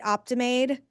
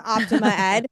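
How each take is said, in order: First: The name is blended into one word. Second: The name is split into two parts. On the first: The speaker calls it wrong. "I said that totally wrong" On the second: The speaker calls it right. "there should have been a dash in my notes"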